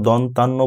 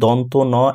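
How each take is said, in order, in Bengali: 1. দুটি অংশ একসাথে মিশে একটি শব্দ হয়ে যায়। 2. দুটি অংশ আলাদা শব্দ হিসেবে উচ্চারিত হয়। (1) "এটা কখনো দন্তান্ন বলা যাবে না" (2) "এইটা বলতে হবে দন্ত ন"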